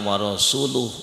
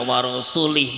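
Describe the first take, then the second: First: The word ends with a 'u' vowel. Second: The word ends with an 'i' vowel. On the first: God and his messenger are both free of the idolaters. The speaker calls it right. "iki bener iki nek maca ora warasuli tapi warasuluh" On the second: God is free of the idolaters and of his messenger. The speaker calls it wrong. "macane mboten wa rasulu tapi wa rasulih"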